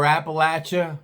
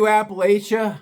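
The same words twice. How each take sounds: First: Appalachia with a short-a "LATCH-a"; alternate pronunciation. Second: Appalachia with a long-a "LAY-sha"; alternate pronunciation. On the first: Storyteller correcting the region's name, Appalachia as "Appa-LATCH-a". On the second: Storyteller naming the region, Appalachia as "Appa-LAY-sha". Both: Shown as a demonstration. Shows two ways of saying it.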